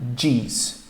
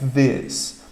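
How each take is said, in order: First: The first sound is a hard d-like stop. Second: The first sound is a soft blown th. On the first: The speaker calls it wrong. "Então não é these" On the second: The speaker calls it right. "a sua língua entre os dentes com você jogando o ar para fora"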